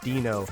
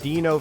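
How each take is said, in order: First: It sounds unlike the Flintstones dinosaur's name. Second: It sounds like the Flintstones dinosaur's name. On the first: The speaker calls it right. "it turns out Dino's the actual pronunciation" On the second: The speaker calls it wrong. "that's why I kept calling that player Dino"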